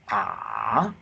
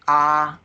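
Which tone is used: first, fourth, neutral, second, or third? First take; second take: third; first. First: It dips low in pitch, the third tone. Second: It is held on a high, level pitch. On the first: "the third tone is" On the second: "the first tone is high pitch, very high on the top"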